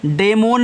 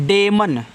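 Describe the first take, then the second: First: डेमोन with a long o in the ending; mispronunciation of demon. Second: डेमन said with a short unstressed "man" ending; correct pronunciation of demon. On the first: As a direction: say डेमोन as day-MOAN. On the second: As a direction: say डेमन as DAY-mun, no long o. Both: Shown as a demonstration. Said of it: "डेमोन नहीं पढ़ना है".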